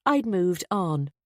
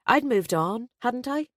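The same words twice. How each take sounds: First: "I'd moved on" said slowly and firmly, settled; decided statement. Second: "I'd moved on, hadn't I" lifted high, rising at the end; self-doubting question. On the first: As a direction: state "I'd moved on" as a slow, final decision. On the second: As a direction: question yourself, voice climbing on "hadn't I". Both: A narrator's reading. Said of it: "Yes, I decided".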